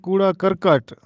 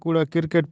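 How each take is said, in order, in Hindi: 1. दूसरा शब्द 'karkat' जैसा सुनाई देता है। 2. दूसरा शब्द 'kriket' जैसा सुनाई देता है। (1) "दुरुस्त तलफ़्फ़ुज़ है" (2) "हम इसे कूड़ा क्रिकेट पढ़ते हैं"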